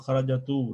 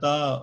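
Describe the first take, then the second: First: The word ends with an added u vowel. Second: The word ends with an added a vowel. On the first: "Because you're not saying" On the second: "Because you're not saying"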